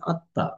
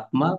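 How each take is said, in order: First: A nasal vowel and doubled t, no m. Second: A clear m sound follows the t. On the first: The speaker calls it right. "এটাকে বলা উচিত আত্মা" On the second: The speaker calls it wrong. "কিন্তু ওনারা বলছেন আত্মা"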